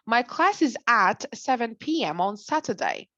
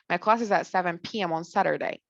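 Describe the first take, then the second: First: It is said in a British accent. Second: It is said in an American accent. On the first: "British people would say the T here" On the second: "They skipped the T here. That's American"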